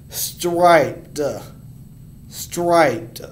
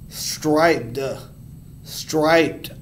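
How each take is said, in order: Both takes have the same delivery.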